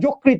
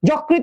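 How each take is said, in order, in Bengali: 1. প্রথম স্বরটি একটি বদ্ধ 'o' ধ্বনি। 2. প্রথম স্বরটি একটি খোলা 'aw' ধ্বনি। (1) "ওকার উচ্চারণ করা লাগবে" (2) "যকৃত নয়"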